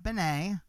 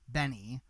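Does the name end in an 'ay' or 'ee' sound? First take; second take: ay; ee. First: The name ends with an 'ay' sound. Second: The name ends with an 'ee' sound. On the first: The speaker calls it wrong. "not Benay" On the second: The speaker calls it right. "that artist is Benny"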